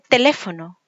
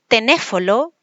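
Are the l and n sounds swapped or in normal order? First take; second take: normal order; swapped. First: The l and n sounds are in place. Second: The l and n sounds trade places. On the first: The speaker calls it right. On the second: The speaker calls it wrong.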